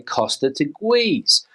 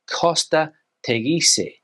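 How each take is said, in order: First: It is pronounced with English-style sounds. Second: It is pronounced with Spanish sounds. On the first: The speaker calls it wrong. "I've heard a lot of people say" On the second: The speaker calls it right. "How would you say it in Spanish?"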